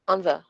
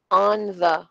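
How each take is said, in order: First: "on the" run together, short and light; quick and soft. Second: "on the" as two separate, fuller words; careful unreduced take. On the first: Teacher showing unstressed words, quick light "on the". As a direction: slip through "on the" as one unit. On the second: Teacher contrasting forms for students, "on the" said fully. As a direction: say "on" and "the" deliberately, each in full. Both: Shown as a demonstration. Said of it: "mabilis lang siya at soft lang siya".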